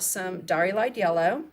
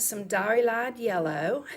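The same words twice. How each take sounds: First: It is said in a plain, everyday accent. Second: It is said in a Southern American accent.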